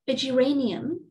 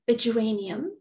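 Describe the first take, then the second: The two takes are said the same way.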